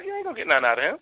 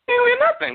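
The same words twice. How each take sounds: First: Said in the usual way. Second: Much higher, squeaky emphatic repeat. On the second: Shown as a demonstration. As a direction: jump way up in pitch to drive it home.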